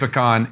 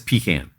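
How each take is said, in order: First: The word is said the non-Southern way. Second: The word is said the Southern way. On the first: This is the speaker's own usual pronunciation. "I say pecan" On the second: This is how a Southern speaker says it. "my wife, who's Southern, says pecan"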